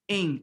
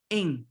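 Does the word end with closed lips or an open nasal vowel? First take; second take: nasal vowel; nasal vowel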